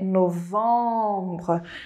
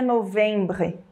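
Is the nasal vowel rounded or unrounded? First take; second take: rounded; unrounded. First: The nasal vowel is rounded. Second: The nasal vowel is unrounded. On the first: The speaker calls it right. "aonde é o nasal arredondado" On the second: The speaker calls it wrong. "Não é novembre"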